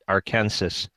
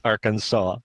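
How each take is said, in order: First: It ends rhyming with Kansas. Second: It ends with a 'saw' sound. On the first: "this is Kansas, but this is not Arkansas" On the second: "because it's Arkansas, the name of the state"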